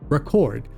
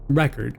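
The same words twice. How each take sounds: First: The word is pronounced the verb way. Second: The word is pronounced the noun way. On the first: The word is used as a verb. "When it's used as a verb, it's pronounced record" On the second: The word is used as a noun. "When it's used as a noun, it's pronounced record"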